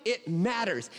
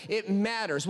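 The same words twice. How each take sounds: First: "it" hit harder than "matters"; weight on "it" in "it matters"; stress on it. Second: "matters" is the peak word; weight on "matters" in "It matters"; stress on matters. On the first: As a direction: lean on the word "it", then let "matters" fall. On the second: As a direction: punch the word "matters", falling tune. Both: Shown as a demonstration.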